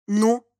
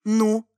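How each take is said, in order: First: Pointed, understated «Ну?»; a meaningful one-word challenge; expressive prompt. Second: Deliberate, unhurried «Ну?»; understated, measured prompting; slow repeat. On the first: Father prompting his son on the roof, pointedly. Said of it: "выразительно произнёс отец". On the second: Father repeating his challenge to the son, slowly. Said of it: "медленно повторил отец". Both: A narrator's reading.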